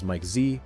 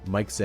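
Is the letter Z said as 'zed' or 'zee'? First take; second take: zee; zed. First: The letter is said as American 'zee'. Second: The letter is said as Canadian 'zed'.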